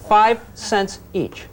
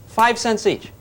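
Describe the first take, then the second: First: Five cents each drawn out slowly; slow emphatic repeat; slow deadpan. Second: Said in the usual way. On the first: Shown as a demonstration. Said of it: "repeats price slowly". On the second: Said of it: "repeats price".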